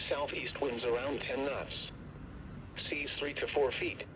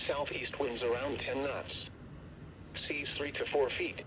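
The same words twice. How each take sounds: The two takes are said the same way.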